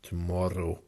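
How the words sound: The R is pronounced hard and clear. "she also had a hard R with the word tomorrow"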